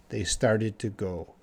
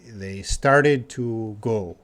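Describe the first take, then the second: First: Said in the usual way. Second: Slow explaining. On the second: Shown as a demonstration. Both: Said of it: "Just means they".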